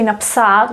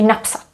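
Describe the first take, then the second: First: The final vowel is held long. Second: The final vowel is kept short. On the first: The speaker calls it wrong. "We don't say napsat" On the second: The speaker calls it right. "we say napsat"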